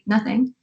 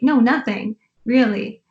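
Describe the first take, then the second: First: It is said flat and still. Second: It is said with lively, joyful energy.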